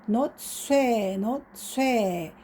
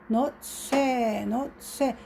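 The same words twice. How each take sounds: Both takes have the same delivery.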